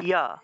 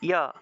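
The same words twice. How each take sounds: No difference in how they are said.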